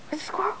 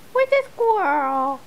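First: Soft, hushed where's the squirrel; hushed squirrel bait; quiet teasing ask. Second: Slow, stretched "the" and "squirrel"; slow teasing drawl; slow drawn-out tease. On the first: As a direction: whisper it to tease the dog. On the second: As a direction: drag it out to get the dog excited. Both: Real, not acted.

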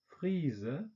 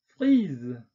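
First: 'Frise' said the German way, with a final schwa, fʁizə; German 'Frise' with a trailing schwa; German-style. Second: 'frise.' said the French way, fʁiz with a released voiced z; French 'frise.' with no schwa. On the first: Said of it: "deutsche Aussprache ... Schwarlaut". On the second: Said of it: "französischen Aussprache mit Detente". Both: Shown as a demonstration.

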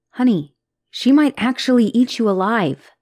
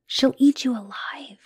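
First: Louder, insistent, punching might; urgent warning. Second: Unvoiced whisper of warning; hushed warning. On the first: Acted. Girlfriend insisting to partner that Lilith is dangerous, urgently. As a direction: say it out loud, insisting she means it. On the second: Girlfriend warning partner about Lilith, whispered. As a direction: whisper it like a dark secret.

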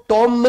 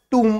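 First: "टॉम" with a short open o; wrong pronunciation. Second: "टूम" with a long oo and a silent b; right pronunciation. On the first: Teacher shows the wrong reading of tomb, short o. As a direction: say "टॉम" like the name Tom. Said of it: "टॉम नहीं पढ़ते". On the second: Teacher gives the right reading of tomb, long oo. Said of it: "टूम पढ़ते हैं". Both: Shown as a demonstration.

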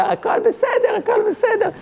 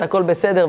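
First: Put-on very high, squeaky old-man voice; hammed-up high-pitched elderly reassurance; mock old man. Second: Said in the usual way. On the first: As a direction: imitate the old man in a tiny falsetto. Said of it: "והמבוגר". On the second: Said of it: "והמבוגרת".

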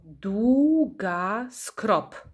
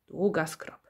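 First: "długa z krop" slow, in measured beats; syllable by syllable. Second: Said in the usual way. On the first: Shown as a demonstration. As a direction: draw out "długa z krop", one syllable per beat. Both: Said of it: "ilość sylab w nazwie pokrywa się".

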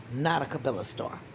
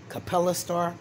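First: Cabela dicho con B, ca-BE-la; Cabela, ca-BE-la, como la tienda; correcting a star name. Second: Capella said ca-PEL-la with a hard P; Capella, ca-PEL-la, with a clear P; corrected star name. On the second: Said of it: "I think it's Capella star". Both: Shown as a demonstration.

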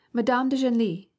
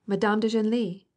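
First: Merry teasing shout, higher and louder, "Madame de Genlis!" called out. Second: Lighter merry shout. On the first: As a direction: tease her by shouting "Madame de Genlis!" from the next room. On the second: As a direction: repeat "Madame de Genlis!" as a lighter, fading jeer. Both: A narrator's reading. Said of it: "shouted the merry voices".

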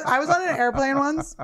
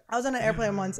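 First: Laughing. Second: Said in the usual way. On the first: Real, not acted.

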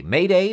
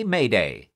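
First: High, loud desperate call; mayday call. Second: Urgency dropping back down; mayday call. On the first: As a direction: shout it into the radio, higher. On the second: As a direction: let the third call fall off. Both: Acted. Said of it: "he called a Mayday alert on the radio".

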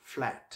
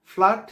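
First: ফ্ল্যাট lower, softer, with the "a" of "cat"; right pronunciation. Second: ফ্ল্যাট louder, higher, with open "aa"; wrong pronunciation. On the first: Teacher giving the correct word, lower "flaet". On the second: Teacher rejecting the common mistake, loud "flaat". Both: Shown as a demonstration. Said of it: "ফ্ল্যাট না".

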